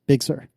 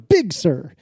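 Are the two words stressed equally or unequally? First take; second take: equally; unequally. First: Both words get the same stress. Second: One word is stressed more than the other. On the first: The speaker calls it right. "equal emphasis" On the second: The speaker calls it wrong. "it is never Big Sur"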